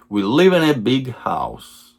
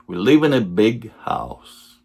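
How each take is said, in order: Both takes have the same delivery.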